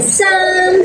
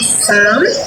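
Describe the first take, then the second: First: The word is said on a high pitch. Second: The word is said on a lower pitch. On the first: The speaker calls it right. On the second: The speaker calls it wrong.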